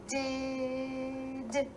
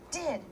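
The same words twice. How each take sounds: First: The word is drawn out slowly, sound by sound. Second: The word is said quickly as one unit.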